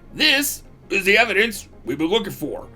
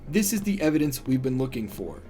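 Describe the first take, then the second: First: It is said in a gruff, strained put-on voice. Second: It is read in a plain, normal voice.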